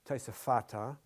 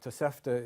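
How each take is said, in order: First: The word has four syllables, keeping the vowel. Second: The word has three syllables, dropping a vowel. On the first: The speaker calls it right. "The actual word is uh, Tosefata" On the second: The speaker calls it wrong. "Tosefta is yeshiva talk"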